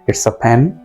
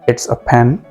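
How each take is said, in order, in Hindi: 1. इस article 'a' को हल्का 'uh' बोला जाता है। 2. इस आर्टिकल 'a' को हल्का 'uh' बोला जाता है।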